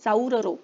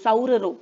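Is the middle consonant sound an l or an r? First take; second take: r; r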